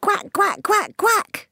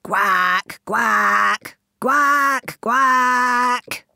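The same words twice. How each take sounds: First: Mummy duck quacking. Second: Long, loud, drawn-out quacks rising; a father duck booming his call across the pond; daddy duck quacking. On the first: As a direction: quack high to call the ducklings home. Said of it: "took a big deep breath". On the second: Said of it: "taking a big deep breath". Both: A narrator's reading.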